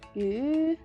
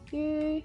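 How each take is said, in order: First: The pitch rises throughout. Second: The pitch stays level throughout. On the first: It means fish. "The second one we use rise tone and it means fish" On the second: It means stupid. "The first one we use level tone and it means stupid"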